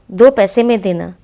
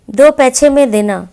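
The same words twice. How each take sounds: First: Said in the usual way. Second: Put-on दो पैसे में देना with पैसे said as पैछे, lisping like a small child; childish lisp. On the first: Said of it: "शुद्ध हिंदी में लिखिए". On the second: Shown as a demonstration. Teacher reads the child's lisping line, पैसे as पैछे. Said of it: "बच्चों की तोतली भाषा".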